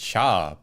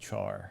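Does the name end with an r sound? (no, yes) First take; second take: no; yes. First: The name ends in a vowel, no r. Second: The name ends with an r sound. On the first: This is the Japanese pronunciation. "In Japanese it's Sha" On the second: This is the English pronunciation. "in English it's spelled like Char"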